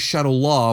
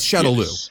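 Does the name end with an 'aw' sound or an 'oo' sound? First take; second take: aw; oo. First: The name ends with an 'aw' sound. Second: The name ends with an 'oo' sound. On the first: The speaker calls it wrong. "I don't understand why they keep mispronouncing it" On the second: The speaker calls it right. "It's Shadow Lou. It's spelled Shadow Lou"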